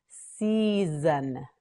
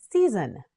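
First: "Season" with long stretched syllables; slow modelling. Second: Said in the usual way. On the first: Shown as a demonstration. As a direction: draw "Season" out slowly. Teacher models word slowly.

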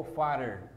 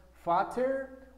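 First: "father" with the middle T softened to a quick tap. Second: "fatter" with a crisp, sounded T; pronounced T. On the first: Teacher showing the other option to learners, tapped T in "father". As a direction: say "father" slowly, tapping the middle consonant. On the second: Teacher showing one option to learners, pronounced T in "fatter". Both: Shown as a demonstration. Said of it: "Tú puedes pronunciar".

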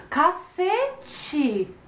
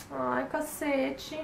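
First: CACETE swooping high, then dropping; big high-pitched exclaimed cacete; intonation demo. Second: AI, CACETE slow and soft; drawn-out, quiet "ai, cacete"; intonation demo. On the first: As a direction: stretch "cacete" up high before the fall. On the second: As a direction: sigh out "Ai, cacete" slowly, softly rising at the end. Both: Shown as a demonstration. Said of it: "Vem várias entonações".

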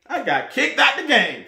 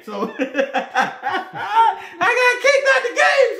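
First: Said in the usual way. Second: High, slow, laughing shout; cackling disbelief at his own ejection. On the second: Real, not acted. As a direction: crack up while shouting it out. Repeats it laughing, much higher.

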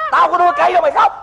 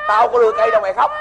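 First: Fast, higher-pitched scolding; urgent, rapid telling-off; exasperated scolding. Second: Said in the usual way. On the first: Acted. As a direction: rush out an exasperated reproach. Master repeats scolding, more urgently.

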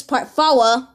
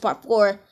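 First: "four" stretched into two syllables, "fow-uh"; playful "fow-uh" for "four"; drawn-out mispronunciation. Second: Said in the usual way. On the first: Shown as a demonstration. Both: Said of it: "or just part four".

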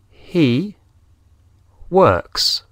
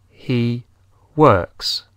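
First: He works said higher and louder, S of works clear; stress on works. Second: Said in the usual way. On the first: Shown as a demonstration. Teacher stresses the added S for learners, higher. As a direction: hit works with its S. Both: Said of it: "añadimos una S al verbo".

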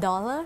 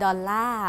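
First: Said in the usual way. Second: Dollar in a Thai accent, stressed long final "lar". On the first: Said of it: "You can't just say". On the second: Shown as a demonstration. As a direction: give dollar a Thai lilt on the last syllable. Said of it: "that's a Thai accent".

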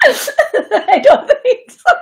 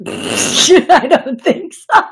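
First: Laughing hard, pitch shooting way up and louder; squealing laugh. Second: Nervous laughter spilling through the words, higher and louder; laughing. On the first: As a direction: let the giggle break into a squeal. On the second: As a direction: giggle it out, can't hold it back. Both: Real, not acted. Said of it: "I laugh when I get nervous".

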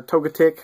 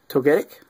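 First: "Togetic" as TOH-guh-tik; alternative pronunciation. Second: "Togetic" as toh-GET-ik; alternative pronunciation. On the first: Card opener offering viewers another way, "Togetic" pronounced TOH-guh-tik. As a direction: say "Togetic" with a weak, reduced middle syllable, guh. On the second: Card opener reading out a pulled card, "Togetic" pronounced toh-GET-ik. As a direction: say "Togetic" with a clear GET in the middle. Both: Shown as a demonstration. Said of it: "however you want to say it".

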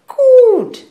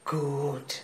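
First: High, very loud exclamation; emphatic approval. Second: Low, soft approval; quiet approval. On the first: Mother seizing on daughter's church attendance, loudly emphatic. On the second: Mother hearing daughter went to church, quietly approving. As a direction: take it in softly. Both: Acted.

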